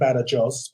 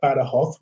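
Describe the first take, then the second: First: The name is said in its standard full form. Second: The name is said in the local regional way. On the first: "it's written Badajoz" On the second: "which is how they pronounce it here"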